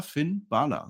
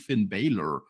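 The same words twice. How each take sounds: First: "Balor" slowly as BAH-la; open, long A in "Balor"; correct name pronunciation. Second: "Balor" drawn out as English BAY-lor; mocked mispronunciation. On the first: Host insists on the wrestler's own version, "Balor" as BAH-la. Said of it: "So heißt das". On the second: Host imitates co-host's wrong version, "Balor" as BAY-lor. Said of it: "wie der Herr Flöter immer sagt". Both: Shown as a demonstration.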